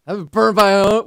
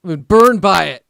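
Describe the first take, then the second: First: Mock whine that rises; rising mock complaint. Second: Loud, falling mock whine; mock complaint. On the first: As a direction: ask it in mock self-pity. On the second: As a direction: complain loudly in mock self-pity.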